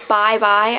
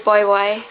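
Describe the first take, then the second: First: It is said with the common, widespread pronunciation. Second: It is said with the speaker's own regional pronunciation. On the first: "instead of saying bye bye" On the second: "I say boy boy"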